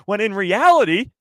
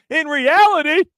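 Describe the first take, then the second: First: "reality" lifted, a first step up; building reveal. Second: "reality" much higher and louder, held out; dramatic peak. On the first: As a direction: start climbing toward the punchline. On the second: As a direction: hit the peak of the reveal. Building to the big reveal. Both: Acted.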